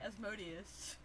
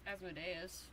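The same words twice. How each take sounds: First: The name is said in a plain accent. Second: The name is said with a Southern drawl. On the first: The speaker calls it right. "I'm sorry" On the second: The speaker calls it wrong. "I said it like that because of Supernatural"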